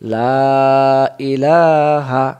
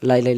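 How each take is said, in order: First: The vowel in 'la' is drawn out long. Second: The vowel in 'la' is cut short. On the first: The speaker calls it right. "এক আলিফ টান দিতে হবে" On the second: The speaker calls it wrong. "এভাবে পড়লে অক্ষর কমে গেল"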